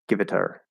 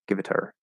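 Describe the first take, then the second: Both takes have the same delivery.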